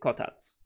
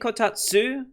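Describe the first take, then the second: First: The final vowel is dropped almost entirely. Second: The final syllable is clearly pronounced. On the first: "or is it Kotats?" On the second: "do you really put emphasis on that"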